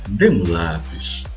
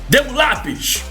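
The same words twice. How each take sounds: First: It is said gently, like a polite request. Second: It is said sharply, like a firm command. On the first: The speaker is asking for a favor. "você entende-a como um pedido" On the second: The speaker is giving an order. "Você entende como uma ordem"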